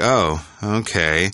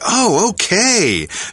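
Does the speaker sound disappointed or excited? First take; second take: disappointed; excited. First: It is said in a flat, disappointed way. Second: It is said in a happy, excited way. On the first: The news is unwelcome. "she was like" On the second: The news is welcome. "So she didn't say"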